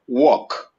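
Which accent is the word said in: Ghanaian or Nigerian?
Nigerian. Nigerian accent, the vowel sounds like 'walk'. "in Nigeria, we pronounce it walk"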